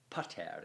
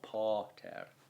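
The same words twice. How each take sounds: First: The first vowel is short. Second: The first vowel is long. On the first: The speaker calls it right. "it's a short a. The the word is pater" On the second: The speaker calls it wrong. "It's not pater"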